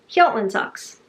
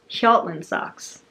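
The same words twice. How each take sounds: First: The name is said firmly and confidently. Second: The name is said hesitantly and unsurely. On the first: The speaker calls it right. "Say it with confidence, and it is believable" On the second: The speaker calls it wrong. "I am doing this such an injustice by making it sound stupid"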